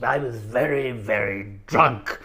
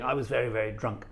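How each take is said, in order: First: Put-on slow, slurred posh old club gentleman; Roly Birkin QC. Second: Said in the usual way. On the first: Old club gentleman ending his garbled anecdote, slow drunken impression. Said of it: "the only thing you could understand him saying".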